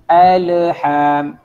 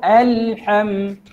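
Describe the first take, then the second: First: The l sound is bounced with a small echo. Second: The l sound is held smoothly without a bounce. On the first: The speaker calls it wrong. "Jangan jadi alham, tu qalqalah" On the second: The speaker calls it right. "Jadi caranya iaitu alham"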